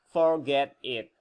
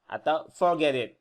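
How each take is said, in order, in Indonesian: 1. Kedua kata itu diucapkan terpisah. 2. Kedua kata itu menyambung jadi satu.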